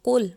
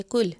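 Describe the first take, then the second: First: Full, heavy "q" starting कुल; heavy qaf. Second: कुल with a light, front "k"; plain light "k" starting कुल; thin kaf. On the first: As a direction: say कुल as "qul", back of the throat. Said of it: "दो नुक्तों वाला कुल मोटा पढ़ा". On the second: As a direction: say कुल as "kul", thin k sound. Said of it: "बारीक डंडी वाला काफ बोलेंगे". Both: Shown as a demonstration.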